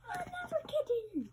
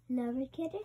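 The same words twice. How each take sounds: First: High, fast squeak; squeaky high voice. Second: Said in the usual way. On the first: Shown as a demonstration. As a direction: pitch it way up, playful. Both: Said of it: "repeated kitten takes".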